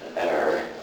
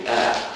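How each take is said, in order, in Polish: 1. Słowo kończy się dźwiękiem r. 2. Słowo kończy się bez dźwięku r.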